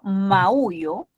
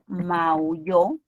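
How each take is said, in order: First: The stress falls on the middle syllable. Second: The stress falls on the last syllable. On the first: I meow. "Estamos frente a un hiato acentual" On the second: Someone else meowed. "estamos frente a una palabra aguda"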